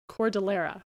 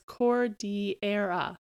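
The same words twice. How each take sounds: First: It is said with a Canadian English pronunciation. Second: It is said with a Spanish pronunciation.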